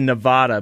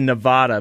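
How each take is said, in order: First: The stressed vowel sounds like the a in father. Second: The stressed vowel sounds like the a in father.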